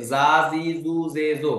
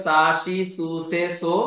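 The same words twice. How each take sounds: First: "জা, জি, জু, জে, জো" with buzzing z sounds; voiced Z series. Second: "সা, শি, সু, সে, সো" with hissed s and sh sounds; S series pronunciation. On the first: Teacher shows learners what ten-ten makes, buzzed Z syllables. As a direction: say "জা, জি, জু, জে, জো", each starting on a voiced z. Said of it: "উচ্চারণ হয়ে যাবে জয়ের মতো". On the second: Teacher recalls the earlier series for learners, S syllables. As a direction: say "সা, শি, সু, সে, সো" without voicing the first consonant. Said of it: "অর্থাৎ আগে ছিল". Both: Shown as a demonstration.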